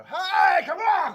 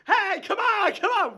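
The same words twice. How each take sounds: First: Loud, high shout to shut them up. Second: Loud, high shout over the crowd; retold shout. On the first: Acted. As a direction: bellow it over the crowd. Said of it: "just shout and go". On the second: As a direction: bellow it while cracking the whip. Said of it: "you just come in going".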